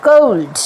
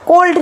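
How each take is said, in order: First: কোল্ড as "kould"; ou diphthong. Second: কোল্ড with a flat Bengali o; pure o. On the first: Teacher gives the correct cold, ou diphthong. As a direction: glide from o to u in কোল্ড. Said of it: "কোল্ড না, কোল্ড". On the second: Teacher shows the wrong cold, pure o. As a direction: say কোল্ড as "kold", no glide. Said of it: "কোল্ড না". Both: Shown as a demonstration.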